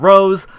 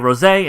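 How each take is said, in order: First: The name is said with one syllable. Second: The name is said with two syllables. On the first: It is the ordinary English word for the flower. The speaker calls it wrong. "instead of Rose" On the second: It is the French word for a pink wine. The speaker calls it right. "why the hell I say Rosé"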